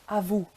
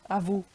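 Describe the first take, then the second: Both takes have the same delivery.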